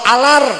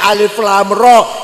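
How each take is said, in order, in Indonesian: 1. Huruf-hurufnya digabung jadi satu kata pendek. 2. Setiap huruf disebut terpisah sesuai namanya. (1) "alif lam ro alar" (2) "ini alif lam ro"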